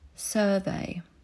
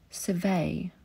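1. Akcent pada na pierwszą sylabę. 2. Akcent pada na drugą sylabę.

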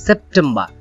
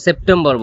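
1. শেষের r নীরব থাকে। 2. শেষের r উচ্চারিত হয়। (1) "কিন্তু এটা হবে সেপ্টেম্বর, কারণ ব্রিটিশরা উচ্চারণ করে থাকে না" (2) "এটাকে আমরা সাধারণত সেপ্টেম্বর বলে থাকি"

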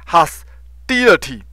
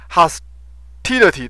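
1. 中间的辅音听起来像 d。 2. 中间的辅音是清晰的 t 音。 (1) "但是他把它发成Hostility" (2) "事实上是Hostility Hostility"

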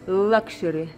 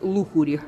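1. Слово произносится по-английски. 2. Слово читается по-русски, по буквам.

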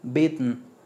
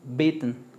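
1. La última sílaba es solo una n silábica. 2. La última sílaba es solo una n silábica.

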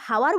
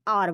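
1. शब्द की शुरुआत सुनाई देने वाली h ध्वनि से होती है। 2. शब्द सीधे एक स्वर ध्वनि से शुरू होता है। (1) "तो हम इसको हावर बोलते हैं क्या? नहीं" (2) "हम क्या बोलते हैं? आर बोलते हैं"

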